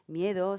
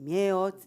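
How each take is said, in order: First: The word ends smoothly with a full final syllable. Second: The word ends abruptly with the middle sound dropped. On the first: "no se dice miedo" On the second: "se termina de una forma más, brunca- más brusca"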